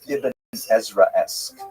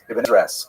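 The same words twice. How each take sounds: First: It is said at a normal pace. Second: It is said quickly.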